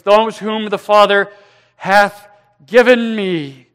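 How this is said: The final words 'given me' carry strong emphasis.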